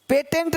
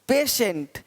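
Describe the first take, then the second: First: The middle consonant is a t sound. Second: The middle consonant is an sh sound. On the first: The speaker calls it wrong. "पेटेंट नहीं" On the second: The speaker calls it right. "देखो पेशेंट"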